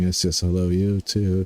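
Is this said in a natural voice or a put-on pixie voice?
natural. It is said in a normal speaking voice. "I'm not gonna do my pixie voice"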